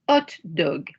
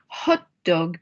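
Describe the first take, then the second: First: The h at the start is silent. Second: The h at the start is pronounced. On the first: "we pronounce it the French way" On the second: "here we're using the English word"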